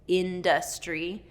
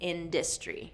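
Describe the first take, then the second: First: All syllables keep their full vowels. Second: An unstressed syllable is reduced and shortened.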